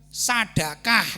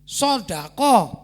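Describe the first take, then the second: First: The consonants are plain and light. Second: The consonants are heavy and emphatic. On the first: The speaker calls it wrong. "bukan sadakah" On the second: The speaker calls it right. "sodako bukan sadakah"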